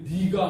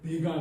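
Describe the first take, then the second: First: The first syllable is said with the vowel 'i'. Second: The first syllable is said with the vowel 'ae'. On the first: "니가 하는 것이 훨씬 부드럽고 좋더라고요" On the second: "내가 그러면은 정확하긴 한데"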